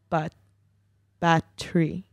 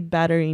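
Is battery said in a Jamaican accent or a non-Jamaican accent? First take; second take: Jamaican; non-Jamaican. First: It is said with a Jamaican-style accent. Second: It is said without a Jamaican accent. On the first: This is how the speaker used to say it. "at that time I used to say battery" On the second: This is how the speaker says it today. "So I say battery now"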